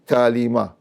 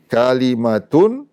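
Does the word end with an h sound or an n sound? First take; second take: h sound; n sound. First: It ends in a cut-off h sound. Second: It ends in a full syllable with n. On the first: The reader stops on this word. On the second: The reading continues without stopping.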